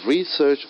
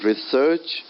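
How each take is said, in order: First: RE-search, first syllable stressed. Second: Re-SEARCH, second syllable stressed. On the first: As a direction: say "Research" as the noun, leaning on RE. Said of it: "stressing more on the word re, first syllable". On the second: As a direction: say "research" as the verb, leaning on SEARCH. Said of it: "second syllable of a verb". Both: Shown as a demonstration.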